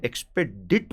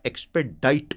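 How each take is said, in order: First: एक्सपेडिट with a short "i" in the last syllable, rhyming with "bit"; pronounced एक्सपेडिट. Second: एक्सपेडाइट with a long "eye" sound in the last syllable, rhyming with "kite"; pronounced एक्सपेडाइट. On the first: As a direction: say एक्सपेडिट ending in "-dit". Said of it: "कई लोग बोलते हैं". (एक्सपेडिट, आख़िर में छोटी इ के साथ "डिट") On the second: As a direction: say एक्सपेडाइट ending in "-dite". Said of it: "ज्यादातर लोग एक्सपेडाइट बोलते हैं". (एक्सपेडाइट, आख़िर में "डाइट" की आवाज़) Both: Shown as a demonstration.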